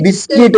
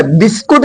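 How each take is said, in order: First: "बिस्किट" with a kit ending; correct English pronunciation. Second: "बिस्कुट" with a koot ending; wrong pronunciation. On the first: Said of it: "English में बिस्किट होता है". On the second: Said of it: "बिस्कुट नहीं बोला जाता". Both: Shown as a demonstration.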